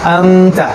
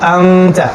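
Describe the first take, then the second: Both takes have the same delivery.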